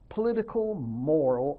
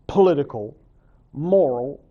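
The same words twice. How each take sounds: First: Said in the usual way. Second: Political and moral each punched louder; stressed list words. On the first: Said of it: "Arguing that true art should have". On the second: Shown as a demonstration. Teacher stresses her own definition's words to the class. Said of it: "opposed to the idea of art".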